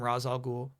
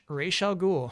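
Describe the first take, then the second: First: The first word ends with a 'z' sound. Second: The first word ends with an 'sh' sound. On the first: "The Nolan movies call him Raz Al Ghul" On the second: "Animated series pronounces it Raish"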